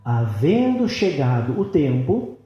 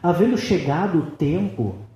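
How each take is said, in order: First: It is read very slowly. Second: It is read at a normal pace.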